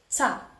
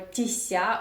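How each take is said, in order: First: The ending is said as a single tsa sound. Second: The ending is said with an added i sound. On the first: The speaker calls it right. "You just say ца" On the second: The speaker calls it wrong. "or тися"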